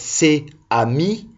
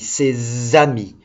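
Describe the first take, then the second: First: The s is not carried onto the next word. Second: The s is linked onto the next word. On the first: The speaker calls it wrong. "on ne dit pas avec ses amis" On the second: The speaker calls it right. "on prend le S et on l'attache à amis"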